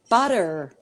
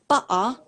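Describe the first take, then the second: First: It is said in an American accent. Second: It is said in a London accent, T dropped. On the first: "the way that Americans might say it" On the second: "if I'm from London, drop in the T"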